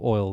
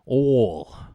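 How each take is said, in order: First: It is said in a plain accent. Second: It is said in a Southern Texan twang.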